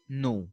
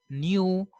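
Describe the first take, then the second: First: No as "noo", no y glide; plain oo in no, "noo"; American pronunciation. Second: New as "nyoo"; British pronunciation. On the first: Teacher contrasting these people's way, American "noo" for no. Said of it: "while these people say". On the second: Teacher after splitting the sounds, British "nyoo" for new. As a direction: say new with a y before oo. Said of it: "while these people say no". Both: Shown as a demonstration.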